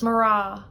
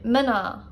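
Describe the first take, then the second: First: It is said with an 'mr' sound. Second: It is said with a vowel between m and n.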